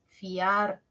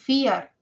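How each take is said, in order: First: The a sounds stronger than the i. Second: The i sounds stronger than the a. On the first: The speaker calls it right. "suena más la A" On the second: The speaker calls it wrong. "No es fiar"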